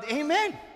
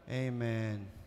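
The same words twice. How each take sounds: First: It is said with excitement and conviction. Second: It is said flatly, without conviction. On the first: The person truly means the answer. The speaker calls it right. "may excitement ... Yung conviction nandoon eh" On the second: Only the mouth is answering. The speaker calls it wrong. "Yung bibig lang yung sumagot eh"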